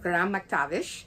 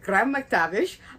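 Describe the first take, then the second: First: The name is said in a Scottish accent. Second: The name is said in a plain accent.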